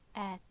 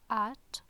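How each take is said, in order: First: The t is released dry, without a puff. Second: The t is released with a puff of air. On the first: "No aspiration, no air" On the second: "in English it's at, there is aspiration, there is air"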